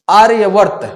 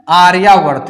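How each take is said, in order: First: There is no long vowel after 'arya'. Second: A long 'aa' vowel follows 'arya'. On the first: The speaker calls it wrong. "कुछ लोग बोलते हैं आर्यवर्त" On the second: The speaker calls it right. "ओ की जगह आ होता"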